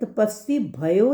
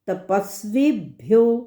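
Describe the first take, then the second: First: A vowel splits 'bh' and 'yo' into two syllables. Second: The 'bhyo' is said as one syllable. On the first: The speaker calls it wrong. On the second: The speaker calls it right.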